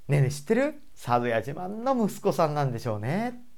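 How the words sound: The tone stays gentle and friendly throughout. "自然にそっちに引っ張られます"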